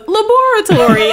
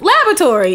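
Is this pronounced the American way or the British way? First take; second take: British; American. First: It is said with a British pronunciation. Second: It is said with an American pronunciation. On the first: The speaker calls it right. "that's how you're supposed to say it in the English way" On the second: The speaker calls it wrong. "My dad screws it up and goes laboratory"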